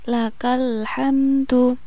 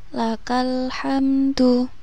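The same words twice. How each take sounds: The two takes are said the same way.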